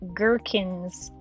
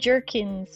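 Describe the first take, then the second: First: The word begins with a hard G sound. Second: The word begins with a soft J sound. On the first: The speaker calls it right. "gherkins like Birkenstocks" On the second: The speaker calls it wrong. "not jerkins like jerky"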